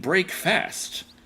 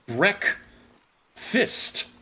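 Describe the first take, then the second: First: The second syllable has a full 'fast' vowel. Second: The second syllable has a reduced 'fist' vowel. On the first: The speaker calls it wrong. "you're not saying break fast" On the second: The speaker calls it right. "You're pronouncing it break fist"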